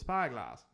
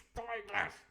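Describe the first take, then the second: First: It is said in the speaker's ordinary accent. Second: It is said in a put-on pirate accent. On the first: "The pirates won't be saying it like that" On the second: "They'll be going, it's Spyglass"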